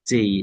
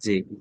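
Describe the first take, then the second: First: The vowel glides into an ee sound. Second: The vowel stays a plain short e. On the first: The speaker calls it right. "জেই not জে" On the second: The speaker calls it wrong. "Not জে"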